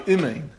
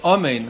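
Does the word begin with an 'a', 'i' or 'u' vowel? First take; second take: i; a. First: The first vowel is a short 'i' sound. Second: The first vowel is an open 'a' sound. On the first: The speaker calls it wrong. "it's a Chataf, which the Mishabrua says a Chataf is a Shva. You say imein" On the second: The speaker calls it right. "saying Amen with a komatz under the Aleph"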